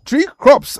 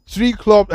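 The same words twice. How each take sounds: First: "tree crops" said much higher and louder to fix the slip; quick self-correction, "tree crops" punched high; corrective stress on crops. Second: Said in the usual way. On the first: Shown as a demonstration. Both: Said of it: "I beg your pardon".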